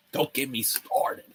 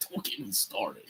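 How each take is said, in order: First: Said in the usual way. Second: Much softer, trailing repeat under the breath; muttered repeat. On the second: Real, not acted. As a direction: say it again to yourself, much softer.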